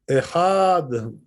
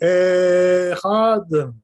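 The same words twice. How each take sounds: First: The first vowel is short. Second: The first vowel is drawn out long. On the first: The speaker calls it right. "The aleph should be quite short, not too long" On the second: The speaker calls it wrong. "Don't say echad like this. You know, that's too much"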